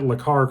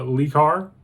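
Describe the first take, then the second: First: The first part is said with a short 'luh'. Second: The first part is said with a long 'lee'. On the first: The speaker calls it right. "instead of pronouncing it Lacar" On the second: The speaker calls it wrong. "called it Lecar"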